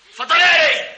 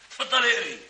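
First: Louder, higher command to read; اتفضلي اقري barked louder and higher; insistent louder order. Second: Said in the usual way. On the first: Acted. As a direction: push her to read it, raising the voice.

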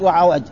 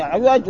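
First: وعوج said wa-'awaj, with a short a after the ayn; first vowel of عوج is a, not i; fatha on the ayn. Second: عوج said 'iwaj, with a short i after the ayn; first vowel of عوج is i, not a; kasra on the ayn. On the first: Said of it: "ضبطه بعض بفتح العين". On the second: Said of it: "وضبطه بعض بكسر". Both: Shown as a demonstration.

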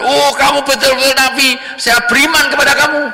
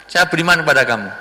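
First: High, eager declaration of faith; pitched high and loud, a hammed-up convert; excited young man. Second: Said in the usual way. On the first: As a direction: gush with sudden belief. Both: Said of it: "pemuda tadi mengatakan".

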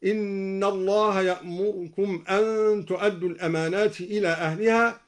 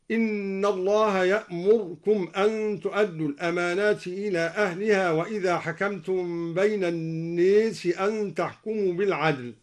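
First: يأمركم with the vowel on the ر only half sounded; snatch the vowel of the ر in يأمركم quickly. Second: يأمركم with the ر given no vowel at all; silent r. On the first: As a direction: ikhtilas on the ر of يأمركم. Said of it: "باختلاس الراء". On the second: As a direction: hold the ر of يأمركم silent, yamurkum. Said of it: "وإسكانها هكذا". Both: Shown as a demonstration.

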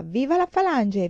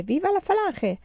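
First: Raised, louder delirious cry. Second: Much higher feverish shriek; the cry climbs into a shriek; delirious shriek. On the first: Feverish girl crying out her slogan, a raised cry. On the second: Feverish girl shrieking her slogan again, much higher. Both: A narrator's reading. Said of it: "sempre gridava".

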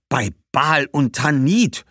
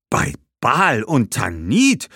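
First: Langsam und laut, Tanit steigend; schimpfend. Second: Langsam, hoch, Tanit steigend; Ausruf. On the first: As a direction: schimpft empört. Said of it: "schimpfte Badbal". (Badbal schimpft „Bei Baal und Tanit“) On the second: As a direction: ruft überrascht die Götter an. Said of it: "rief Hannibal wieder". (Hannibal ruft überrascht „Bei Baal und Tanit“) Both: Acted.

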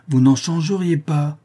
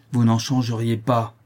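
First: Same denial pitched high, insistent; raised, emphatic rebuttal; forceful contradiction. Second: Firm denial in an even voice; measured, stern rebuttal; firm contradiction. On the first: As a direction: cut in and override his protest. Father repeats over son's interruption. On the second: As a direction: contradict him without raising the voice. Father contradicts, then repeats harder. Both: Acted.

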